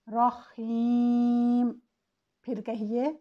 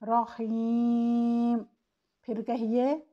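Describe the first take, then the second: The two takes are said the same way.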